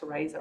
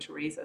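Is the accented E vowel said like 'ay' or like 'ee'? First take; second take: ay; ee. First: The accented E is said as an 'ay' sound. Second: The accented E is said as an 'ee' sound. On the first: This is the form the name was meant to have. "my mum put the little line there to make it an A sound of the E" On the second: This is the usual form most people use. "rather than Theresa"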